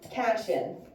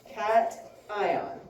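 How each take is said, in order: First: The word is blended without a clear 'cat' part. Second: The word is split into 'cat' and 'ion'. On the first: The speaker calls it wrong. "people want to pronounce this as a cation" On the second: The speaker calls it right. "It's a cat ion"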